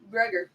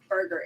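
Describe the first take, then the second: First: The name begins with a 'brew' sound. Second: The name begins with a 'bur' sound. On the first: The speaker calls it right. "It is Brugger" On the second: The speaker calls it wrong. "it is not Burger"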